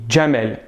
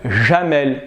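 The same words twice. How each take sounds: First: The name begins with a 'dj' sound. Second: The name begins with a soft 'zh' sound. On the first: The speaker calls it right. "j'ai dit Jamel" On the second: The speaker calls it wrong. "Je n'ai pas dit Jamel"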